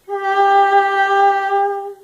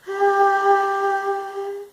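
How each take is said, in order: First: The vowel sounds clear and evenly balanced. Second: The vowel sounds airy, with breath escaping. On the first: "it gives a clear, balanced sound like this" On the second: "the breathy is where your vocal folds are coming together but they're not quite meeting"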